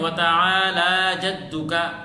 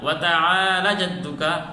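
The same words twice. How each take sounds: First: The vowel after the L is drawn out long. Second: The vowel after the L is cut short. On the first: The speaker calls it right. "इसी तरह हम पढ़ते हैं" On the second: The speaker calls it wrong. "इस खड़ी ज़बर को अगर खींच कर न पढ़ा"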